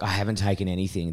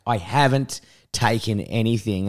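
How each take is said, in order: First: Said in the usual way. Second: Slow, spaced-out stress on "haven't taken anything"; insistent denial. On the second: Retold or imitated. Patient insisting to hospital staff, slow emphatic "haven't taken". Insists when asked a second time.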